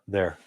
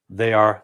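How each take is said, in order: First: One contracted word, said quickly together. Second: Two separate words, said slowly and fully.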